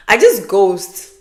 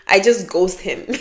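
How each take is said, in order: First: Laughing. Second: Said in the usual way. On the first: Real, not acted. To viewers, laughing about ghosting men. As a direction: laugh through it, drawn out slowly.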